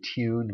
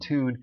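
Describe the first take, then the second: First: It is said with a y-glide: tyoon. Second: It is said with no y-glide: toon. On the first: This is the form people think is better. The speaker calls it right. "better to say tune" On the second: This is the form people think is worse. The speaker calls it wrong. "rather than tune"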